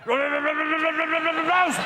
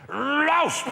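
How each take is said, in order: First: The bark is said with a stammer. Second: The bark is said with a lisp. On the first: "And then it developed a stammer" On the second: "it's got a lisp, this dog. And when it barks, it goes like this"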